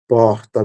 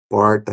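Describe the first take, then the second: First: The R is a breathy sound from the throat. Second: The R is retroflex, tongue curled back.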